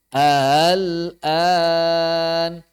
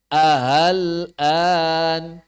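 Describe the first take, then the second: First: "ahal an" very slow, the a eased out softly; soft tashil a. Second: "Ahal an" slow, the a pushed firmly. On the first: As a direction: glide gently through the a of "ahal an". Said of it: "dorong lembut". ("ahal an" dibaca tashil, a-nya didorong lembut) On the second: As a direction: push the a of "Ahal an" out hard and slowly. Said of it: "di sini a-nya didorong". ("Ahal an" dengan a didorong tegas, pelan) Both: Shown as a demonstration.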